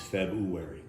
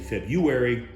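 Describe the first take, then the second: First: The R after 'Feb' is pronounced. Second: The R after 'Feb' is dropped. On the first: The speaker calls it right. "its proper pronunciation is February" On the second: The speaker calls it wrong. "A lot of people say February, much like January"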